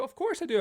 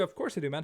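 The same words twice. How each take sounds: First: High, loud, eager "Of course I do"; excited high reply. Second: Said in the usual way. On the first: Real, not acted. Streamer to old viewer Joe, eager and high-pitched. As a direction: shoot it up high like a happy yelp.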